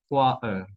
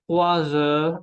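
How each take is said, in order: First: Trois heures with silent s; trois, then heures, unlinked; missing liaison. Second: Trois heures linked with a z; liaison. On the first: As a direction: slowly split "trois heures", no z. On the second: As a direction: slowly say "Trois heures" as troi-zeures. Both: Shown as a demonstration. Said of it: "y no trois heures".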